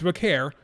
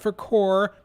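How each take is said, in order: First: The name is said with its intended ending. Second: The name is said ending like 'core'. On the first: The speaker calls it right. "it's Vaquer" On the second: The speaker calls it wrong. "not for Core"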